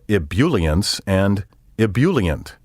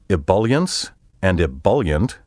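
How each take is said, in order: First: The second syllable sounds like bule. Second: The second syllable sounds like bulk. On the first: The speaker calls it wrong. "The bool and bule sounds are wrong" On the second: The speaker calls it right. "with the B U L pronounced as in the word bulk"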